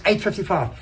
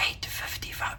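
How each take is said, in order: First: Said in the usual way. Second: Hushed, breathy whisper. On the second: Retold or imitated. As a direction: whisper it like a secret threat. Start lady's mock-threat retold.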